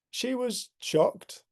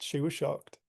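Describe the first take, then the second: First: She was shocked drawn out slowly, higher on she; slow, raised retelling of she was shocked; slow emphatic. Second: Said in the usual way. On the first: Shown as a demonstration.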